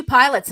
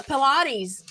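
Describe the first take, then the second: First: "pilates" said like the word pilots; misread word. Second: "Pilates" in three syllables, puh-LAH-teez; corrected word. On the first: Reading a friend's mistyped text, "pilates" said as pilots. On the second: Friend correcting the typo, "Pilates" said puh-LAH-teez. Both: Acted. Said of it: "I meant Pilates".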